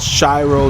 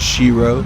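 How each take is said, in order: First: The first vowel is an I sound. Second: The first vowel is an E sound. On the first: The speaker calls it right. "It's pronounced with an I sound" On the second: The speaker calls it wrong. "not an E sound"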